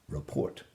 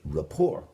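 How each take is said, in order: First: The final T is sounded, English style. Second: The final T is silent, French style. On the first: The speaker calls it wrong. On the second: The speaker calls it right.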